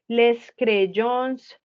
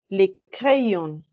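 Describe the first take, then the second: First: The final s of 'les' is pronounced. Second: The final s of 'les' is silent. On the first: The speaker calls it wrong. "que no digo les crayons" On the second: The speaker calls it right. "je la prononce pas"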